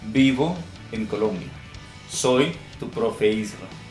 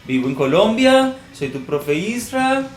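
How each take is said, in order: First: The voice falls at the end. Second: The voice rises at the end.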